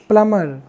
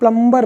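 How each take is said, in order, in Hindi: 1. m के बाद b silent रहता है। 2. b की ध्वनि m के बाद बोली जाती है। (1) "प्लम्बर ना बोल के प्लमर बोला जाता है" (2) "इंडियन लोग मैक्सिमम बोलते हैं क्या, इसको प्लम्बर बोलते हैं"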